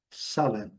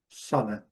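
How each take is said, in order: Both takes have the same delivery.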